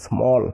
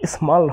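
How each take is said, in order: First: The vowel sounds like a rounded 'aw'. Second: The vowel sounds like an open 'ah'. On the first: The speaker calls it right. "হবে কি স্মল" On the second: The speaker calls it wrong. "স্মল হবে না"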